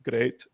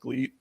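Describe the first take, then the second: First: The name sounds like the word 'great'. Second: The name sounds like the word 'gleet'. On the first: This is the official way to say the name. "the official pronunciation is like great" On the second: This is a personal preferred way to say the name. "I want to call it gleet"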